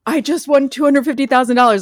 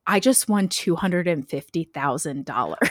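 First: Louder, higher retold exclamation; imitated excited winner. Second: Retold win, low-key and softly delivered; stunned understatement. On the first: Re-quoting the winner in viral footage, excited imitation. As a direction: proclaim the win as if on camera. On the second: Lottery winner turning to the cameraman, stunned understatement. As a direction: play down the big news in disbelief.

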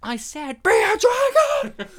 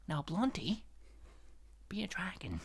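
First: Imitation of a sudden high-pitched outburst; exasperated shout. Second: Calm, quiet and precise; very soft, carefully measured mock-calm impression; Jerry Stiller. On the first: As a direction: blow up loudly, stretching out the words. Acted exasperated repeat of quiet line. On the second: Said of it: "talking very calmly and quietly, being really precise".

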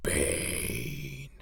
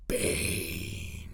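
First: Bane mask voice. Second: Low, breathy whispered "Bane". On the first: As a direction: say it like through a mask, quieter. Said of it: "try to do it with the mask voice". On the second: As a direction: growl the name low under the breath. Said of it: "I love saying it like that". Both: Shown as a demonstration.

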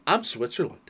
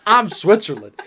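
First: Dry deadpan. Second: Said in the usual way. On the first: Retold or imitated. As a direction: play it quietly neutral. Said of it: "my dad, in the ultimate". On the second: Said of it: "That's his answer to everything".

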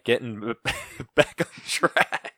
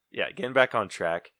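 First: Giggling through it, higher and louder; can't keep a straight face; laughing. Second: Said in the usual way. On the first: Real, not acted. Trying to steer the podcast back, breaking into laughter.

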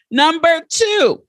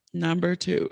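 First: Slow, loud, much higher call of "Number two"; announcing number two. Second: Said in the usual way. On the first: Shown as a demonstration. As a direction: announce "Number two" like a show host, drawn out. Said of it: "So Booney Live, number one".

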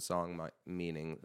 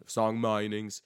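First: Said in the usual way. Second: Exaggerated Australian twang, a bit louder; terrible Australian accent. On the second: Podcast host slips into song-meanings joke, bad Australian accent. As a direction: put on a bad Aussie voice. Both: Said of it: "that's my terrible, uh, Australian accent".

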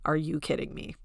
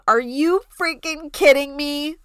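First: Soft, low muttered disbelief; quiet Shannon mutter. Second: High, indignant mock outburst; Shannon Beador outraged. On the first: Retold or imitated. Host imitating Shannon grumbling far away, soft and low. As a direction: mutter it under your breath. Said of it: "Somewhere Shannon is saying". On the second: Host imitating an ex's angry reaction, high mock outburst. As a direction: squeal it out in disbelief, high. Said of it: "you can hear Shannon Beador right now saying".

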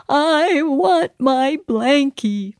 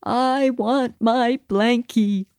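First: Put-on louder, higher, slow wailing child; crying toddler louder. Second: Put-on slow, whimpering little-boy plea; crying toddler. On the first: Mother retelling her son wailing louder for his blankie, higher childlike cry. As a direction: let the little boy's wail swell up. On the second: Mother retelling her son whimpering for his blankie, slow childlike whine. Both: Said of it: "one day crying in the corner".

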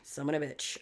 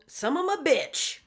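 First: Lower, softer some of a bitch; a quiet grudging repeat; muttered echo. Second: Much higher, slow, stretched some of a bitch; mock-outraged slow curse; drawn-out curse. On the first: Retold or imitated. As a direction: say it under your breath. Echoing the curse quietly. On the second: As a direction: savor it like a grudging compliment.

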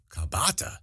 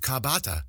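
First: "Kabata" with a questioning rise at the end; questioning echo. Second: Said in the usual way. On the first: A narrator's reading. General to girl on hearing an old name, "Kabata" as rising question. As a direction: repeat "Kabata" as a question, lifting the last syllable.

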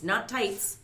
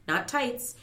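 First: Said in the usual way. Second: "tights" lifted higher with a rising tune; correcting the leggings advice, emphatically; stress on tights. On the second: Real, not acted. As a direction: push "tights" up to insist. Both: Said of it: "repeating her point".

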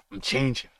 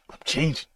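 First: Half-voiced panicked realisation; a man feeling himself change; man transforming. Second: Voiced, slightly higher panicked cry. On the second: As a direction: say it aloud as fear takes hold. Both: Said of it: "I got a little intro for you guys".

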